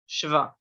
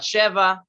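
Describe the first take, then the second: First: No vowel separates the sh and v. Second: An eh vowel separates the sh and v. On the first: The speaker calls it right. "just shva" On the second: The speaker calls it wrong. "not sheva"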